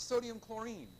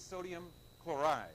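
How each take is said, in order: First: Chlorine with an "-een" ending, pitched up; wrong name ending. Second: Chloride with an "-ide" ending, falling; correct name ending. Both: Shown as a demonstration. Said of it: "it's not sodium chlorine".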